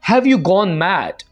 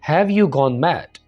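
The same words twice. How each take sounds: First: It is said forcefully, with clear anger. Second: It is said flatly, without any anger. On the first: The speaker is upset with the listener. The speaker calls it right. "तो आपको लग रहा होगा कि आप गुस्सा कर रहे हैं।" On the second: The speaker does not seem upset. The speaker calls it wrong. "तो आपका इंप्रेशन या आपके जो एक्सप्रेशन हैं वो ऐसे नहीं होंगे जैसे गुस्से में होने चाहिए।"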